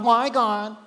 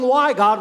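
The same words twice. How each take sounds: First: It is said in a very whiny voice. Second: It is said in a fairly neutral voice.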